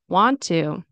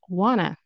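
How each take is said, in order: First: It is said as two full, separate words. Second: It is reduced and blended into one word.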